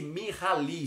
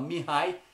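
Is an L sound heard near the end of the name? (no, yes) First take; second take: yes; no. First: The name is read with an L sound, Portuguese-style. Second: The name is said without any L sound. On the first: The speaker calls it wrong. "se a gente fosse é, ler do, de forma aportuguesada" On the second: The speaker calls it right. "mas se fala Mihai"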